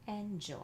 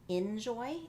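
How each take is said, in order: First: The first vowel sounds like a clear 'eh'. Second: The first vowel sounds like a short 'ih'. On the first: The speaker calls it right. "make sure you're saying N for your first chunk" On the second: The speaker calls it wrong. "It sounds more like an I sound when they pronounce it"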